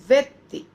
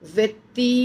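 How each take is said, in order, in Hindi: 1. अंतिम स्वर बहुत जल्दी काटकर छोटा बोला जाता है। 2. अंतिम स्वर खींचकर लंबा बोला जाता है। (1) "इतना जल्दी कि समझ में ही नहीं आ रहा है" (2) "वो व्यक्ति नहीं कहलाएगा"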